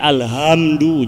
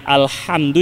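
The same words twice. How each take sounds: First: The h is a plain, light h sound. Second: The h is a deep, breathy throat sound. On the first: The speaker calls it wrong. "jadi ha" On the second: The speaker calls it right. "yang tadinya alhamdu"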